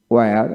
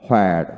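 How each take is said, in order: First: ওয়্যার with a plain w onset; British pronunciation. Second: হোয়ার with h before the w; American pronunciation. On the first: Teacher drilling wh words, British pronunciation. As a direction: say ওয়্যার British-style, without any h. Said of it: "British উচ্চারণে". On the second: Teacher drilling wh words, American pronunciation. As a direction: say হোয়ার American-style, leading with h. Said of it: "এবং আমেরিকানে হ". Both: Shown as a demonstration.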